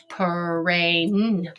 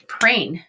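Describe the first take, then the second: First: "Prain" stretched sound by sound. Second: Said in the usual way. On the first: Shown as a demonstration. Teacher testing a made-up word, "Prain" in separate sounds. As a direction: tap out "Prain" in pieces. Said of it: "tap this word out and say it". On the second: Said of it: "and say it".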